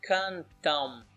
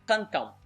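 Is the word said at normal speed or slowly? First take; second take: slow; normal. First: The word is said slowly and drawn out. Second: The word is said at normal speed.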